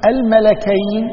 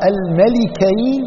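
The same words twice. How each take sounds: First: Slow "الملكين" as al-malakayn; fatha on the lam. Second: Slow "الملكين" as al-malikayn; kasra on the lam. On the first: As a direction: stretch out "الملكين" with an A after the lam. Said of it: "بفتح اللام". ("الملكين" بفتح اللام) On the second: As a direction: stretch out "الملكين" with an I after the lam. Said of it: "وإذا قلنا بكسر اللام". ("الملكين" بكسر اللام) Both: Shown as a demonstration.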